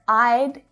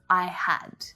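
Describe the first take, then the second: First: The two words are joined into one short syllable. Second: The two words are said separately and fully. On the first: "it's really natural to hear I'd" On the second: "instead of I had"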